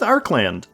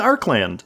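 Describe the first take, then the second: First: The consonant after 'Ar' is hard k. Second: The consonant after 'Ar' is hard k.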